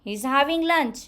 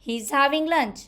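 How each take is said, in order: First: He and is are joined into one syllable. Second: He and is are joined into one syllable.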